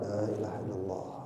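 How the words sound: It is said slowly, softly and briefly. The dying person is invited to follow along. The speaker calls it right. "dengan pelan, dengan lembut, pendek"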